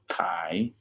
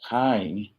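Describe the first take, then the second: First: The word has a low rising tone. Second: The word has no low rising tone. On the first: "which is to sell" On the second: "when you do the Luang Prabang accent, they lose that low rising tone"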